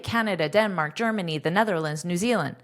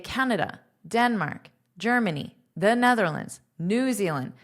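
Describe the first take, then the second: First: The items run together quickly without pauses. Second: A clear pause separates each item. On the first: The speaker calls it wrong. "That sounds very rushed" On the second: The speaker calls it right. "This comma is verbalized as a pause"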